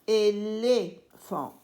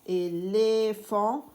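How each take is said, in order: First: Éléphant stretched out slowly, each syllable distinct; teacher drawing out éléphant for the class; slow syllabified word. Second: Éléphant said slowly again with a questioning rise at the end; teacher repeating éléphant, inviting the class to echo; slow syllabified word, rising. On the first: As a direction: sound out Éléphant for children. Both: Shown as a demonstration. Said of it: "L-E".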